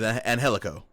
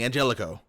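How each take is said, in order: First: The middle consonant is an H sound. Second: The middle consonant is a J sound. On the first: The speaker calls it right. "but his name is Angelico" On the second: The speaker calls it wrong. "They keep on saying Angelico"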